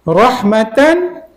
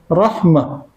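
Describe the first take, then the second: First: The word ends with a full t-n ending. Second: The word ends with a soft h sound. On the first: The reciter continues without stopping. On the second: The reciter stops on this word.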